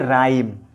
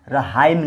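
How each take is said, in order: First: The word starts with no h sound. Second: The word has an h sound after the r. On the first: The speaker calls it right. "इसको बोलेंगे राइम" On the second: The speaker calls it wrong. "रहाइम नहीं"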